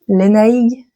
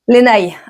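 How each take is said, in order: First: The name ends with a G sound. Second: The name ends without a G sound. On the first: "Est-ce qu'on prononce le G G" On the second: "ou est-ce qu'on"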